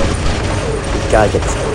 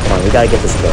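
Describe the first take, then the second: First: Slow whispered mutter; whispering. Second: Said in the usual way. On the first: Real, not acted. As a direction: whisper it to yourself, slowly. Repeats it under breath.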